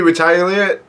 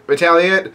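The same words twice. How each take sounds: First: "retaliate" said as "re-TIE-a-lit"; mispronounced retaliate. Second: Said in the usual way. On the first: Real, not acted. Reader stumbling on retaliate, mispronounced with a "tie" sound. Misreads word, then corrects it.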